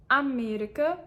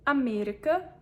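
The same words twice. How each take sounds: The two takes are said the same way.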